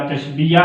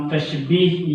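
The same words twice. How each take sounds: First: तशबीया said tash-bee-ya, three syllables; alternative reading. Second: तशबीह said tash-beeh, two syllables; first reading. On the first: Teacher offering the other name, तशबीया as tash-bee-ya. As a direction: add an open "ya" to end तशबीया. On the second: Teacher naming the first topic, तशबीह as tash-beeh. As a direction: close तशबीह on long "ee", without "ya". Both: Shown as a demonstration. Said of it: "तशबीह या तशबीया".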